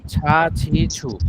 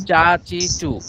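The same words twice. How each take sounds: First: "ছা ছি ছু" slow, with a breathy aspirated chh; aspirated chha. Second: "চা চি চু" with a plain unaspirated ch; "চা চি চু" said with a light, unaspirated ch, as before; plain cha chi chu. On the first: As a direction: draw out "ছা ছি ছু" with a puff of air on each chh. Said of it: "এটা ছয়ের উচ্চারণ হবে". (ধীরে, হাওয়া ছেড়ে মহাপ্রাণ "ছা ছি ছু") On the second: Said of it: "আগে ছিল ... এখন ছা ছি ছু". (সাধারণ চ দিয়ে "চা চি চু") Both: Shown as a demonstration.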